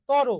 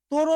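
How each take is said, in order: First: তর with an open first vowel, "taw-ro"; correct pronunciation demo. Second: তর with a closed first vowel, "to-ro"; wrong pronunciation demo. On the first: Teacher stating the pronunciation rule, তর as "taw-ro". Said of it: "উচ্চারণের নিয়মই এইটা". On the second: Teacher rejecting a student's version, তর as "to-ro". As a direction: round the first vowel of তর into a full o. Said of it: "তর না তো ভাইয়া". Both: Shown as a demonstration.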